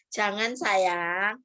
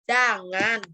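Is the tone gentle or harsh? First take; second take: gentle; harsh. First: It is said gently and warmly. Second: It is said harshly and sternly.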